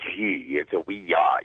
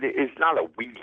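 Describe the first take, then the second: First: "Ouija" slowly as wee-ja, lower; "Ouija" drawn out, wee then ja; right pronunciation. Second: "Ouija" said as wee-jee; "Ouija" with a plain wee-jee sound; wrong pronunciation. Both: Shown as a demonstration.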